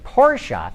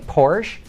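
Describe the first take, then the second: First: The name is said with two syllables. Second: The name is said with one syllable. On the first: This is how the name's owner said it. The speaker calls it right. "Now I say Porsche because that is how Ferdinand said it" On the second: This is the familiar anglicized way. The speaker calls it wrong. "I used to say Porsche"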